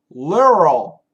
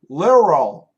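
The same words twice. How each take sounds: First: The middle consonant sounds like an R. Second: The middle consonant sounds like an R.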